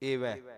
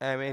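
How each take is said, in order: First: The first vowel is a closed 'e' sound. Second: The first vowel is an open 'ae' sound. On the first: The speaker calls it right. "ਏਵੈ, ਇਸ ਤਰੀਕੇ ਨਾਲ" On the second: The speaker calls it wrong. "ਐਵੇਂ ਨਹੀਂ"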